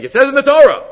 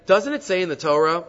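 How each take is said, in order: First: High, loud declaration falling on "Torah"; emphatic statement. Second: Phrase it as a question, rising at the end on "Torah"; measured question, lifting "Torah" at the close. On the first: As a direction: state it forcefully as fact, dropping firmly on "Torah". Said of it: "better to say it as a statement". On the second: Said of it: "better to ask it as a question". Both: Shown as a demonstration.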